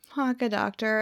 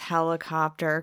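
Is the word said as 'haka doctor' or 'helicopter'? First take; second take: haka doctor; helicopter. First: The word comes out as 'haka doctor'. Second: The word comes out as 'helicopter'. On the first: This is how a small child said it. The speaker calls it wrong. "he used to say haka doctor for helicopter" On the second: This is how the child says it now, grown older. The speaker calls it right. "now he says helicopter"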